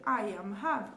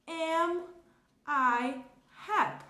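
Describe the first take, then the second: First: Said in the usual way. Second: "Am", "I", "happy?" each set apart with pauses, louder; slow, word by word. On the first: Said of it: "ao invés de eu ter". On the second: Shown as a demonstration. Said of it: "a minha pergunta vai ficar".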